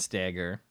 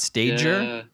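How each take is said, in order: First: The g is hard, as in get. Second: The g is soft, as in stage. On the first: The speaker calls it right. "so your name is Ben Steger" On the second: The speaker calls it wrong. "not Stager"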